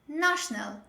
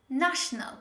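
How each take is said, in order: First: The first vowel is an open ah sound. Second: The first vowel is an open ah sound.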